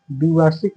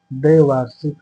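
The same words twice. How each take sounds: First: द्विवार्षिक said dvi-vaar-shik with a short i; द्विवार्षिक with द्वि, short i; wrong form shown. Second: द्वैवार्षिक said dvai-vaar-shik with the ai vowel; द्वैवार्षिक, open ai in the first syllable; correct form. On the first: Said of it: "द्विवार्षिक नहीं होता". (द्विवार्षिक छोटी 'इ' के साथ) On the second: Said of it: "द्वैवार्षिक होता है". (द्वैवार्षिक 'ऐ' की मात्रा के साथ) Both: Shown as a demonstration.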